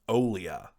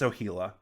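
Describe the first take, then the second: First: The name has no h sound in the middle. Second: The name has an h sound in the middle. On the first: The speaker calls it wrong. "I've been saying wrong" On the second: The speaker calls it right. "But no, it was it's Ohila"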